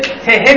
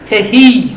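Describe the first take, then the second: First: The final vowel is short. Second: The final vowel is drawn out long.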